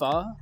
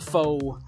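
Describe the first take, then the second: First: The word has a Vietnamese-style pronunciation. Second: The word has an English-style pronunciation. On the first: The speaker knows the dish and its language. The speaker calls it right. "you actually pronounce it pho, they'll be impressed" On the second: The speaker is an outsider unfamiliar with the dish. The speaker calls it wrong. "non-Asians walking in there and going"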